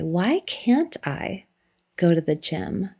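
It sounds open and curious.

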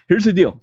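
It is said in a put-on woman's voice.

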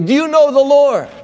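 It is said confrontationally, like a poke.

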